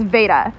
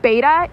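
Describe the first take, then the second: First: The word begins with a V sound. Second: The word begins with a B sound.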